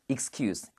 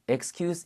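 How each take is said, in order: First: The word ends with a hissing s sound. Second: The word ends with a buzzing z sound. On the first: It is used as a noun. "명사로 쓸 때는 발음이 쓰로 끝나요. 그래서 드가 아니라 씁니다" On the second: It is used as a verb. "동사로 쓰일 때는 ... 발음할 때 excuse입니다"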